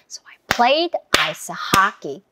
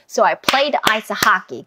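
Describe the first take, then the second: First: It is said at a medium pace. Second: It is said at a fast pace.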